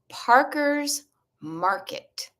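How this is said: It is said in a non-Boston accent. "I will pronounce it with my non Boston accent"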